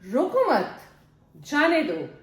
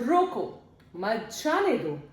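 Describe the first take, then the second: First: There is a pause right after mat. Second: There is a pause right after roko. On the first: Do not stop them; let them go. "roko mat, do not stop, जाने दो, let them go" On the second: Stop them and do not let them go. "roko, stop, mat jaane do, do not let them go"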